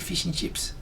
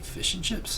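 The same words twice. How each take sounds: First: It is said with an Australian-style vowel. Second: It is said with a New Zealand-style vowel. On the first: The speaker calls it wrong. "they don't say fish and chips" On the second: The speaker calls it right. "They say it like us, or more like us"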